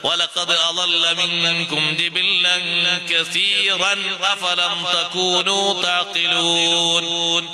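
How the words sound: Joins 'kathiran' to 'afalam' with a clear n. The speaker calls it right. "ഇനിങ്ങനെ കൂട്ടി ഓതുക"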